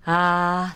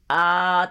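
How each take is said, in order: First: A low tone with breath flowing through it. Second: A low tone with the breath held back. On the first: The speaker calls it right. "息を流した低音" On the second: The speaker calls it wrong. "こういう息を止めたような低い音じゃなくって"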